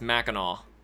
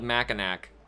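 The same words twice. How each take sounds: First: The name is said differently from its spelling. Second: The name is said just as it is spelled. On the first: "but it's Mackinac" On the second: "It's spelled Mackinac"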